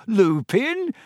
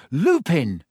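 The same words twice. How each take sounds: First: High, rising disbelief; incredulous question. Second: Said in the usual way. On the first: Acted. Harry scoffing at Ron's guess, incredulous.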